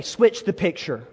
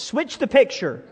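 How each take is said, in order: First: Said in the usual way. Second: With confidence. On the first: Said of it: "Slap your neighbor gently and say". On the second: Shown as a demonstration. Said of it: "I need you to do it with some confidence".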